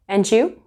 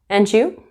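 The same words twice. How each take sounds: First: The D links into 'you', sounding like 'jew'. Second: The same.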